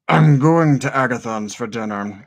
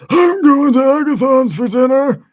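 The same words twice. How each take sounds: First: It is said in a more relaxed voice. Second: It is said in a strained, throat-hurting put-on voice.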